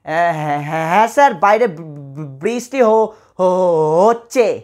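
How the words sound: The sentence is spoken with stutters and gaps. A speaker with a speech disorder answers. The speaker calls it wrong. "একটু তোতলে তোতলে বলবে"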